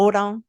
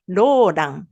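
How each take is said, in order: First: Said French-style, with a French R and nasal ending. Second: Said Japanese-style, with an L sound and long vowel. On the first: "il y a beaucoup de d'écart par rapport au Roland" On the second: "c'est le voyelle qui va être long et on prononce Roland"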